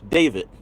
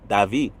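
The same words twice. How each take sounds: First: The name is said with an English pronunciation. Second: The name is said with a Spanish pronunciation. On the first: "You could say it in English" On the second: "Or hola"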